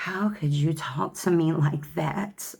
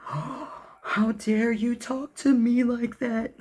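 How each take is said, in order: First: Slow, higher wounded whine, lightly done; mock victim. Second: Very high, very slow offended drama-queen voice; mock outraged victim. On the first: Ex who plays victim when confronted, mild mock wounded whine. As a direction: mildly mimic someone playing the victim. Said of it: "it's like, Oh". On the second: Selfish ex confronted about behavior, hammed-up offended whine. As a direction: ham up the wounded indignation. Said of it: "it's like".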